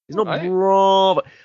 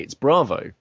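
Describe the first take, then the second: First: The first vowel is long and drawn out. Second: The first vowel is short and clipped. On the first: The speaker calls it wrong. "you're putting too many A's in there" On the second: The speaker calls it right. "It's just one A"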